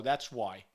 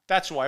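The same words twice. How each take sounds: First: A curt under-the-breath retort; muttered aside. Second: That's punched hard and final; emphatic repeat. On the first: Host retelling his text to Anna, quiet and curt. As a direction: drop low and soft, almost to himself. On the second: Host retelling his text to Anna, firm and emphatic. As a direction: slam the words down a second time. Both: Retold or imitated.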